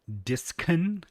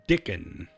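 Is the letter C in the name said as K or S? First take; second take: S; K. First: The C is said as an S sound. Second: The C is said as a K sound.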